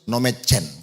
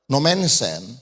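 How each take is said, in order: First: The middle of the name has a 'ch' sound. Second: The middle of the name has an 'ns' sound. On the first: This is how Batak people usually say it. "orang Batak agak sulit sih ngomong Nomensen ya. Apa yang dia bilang sering?" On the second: This is the proper form of the name. "nah itu namanya yang jelas"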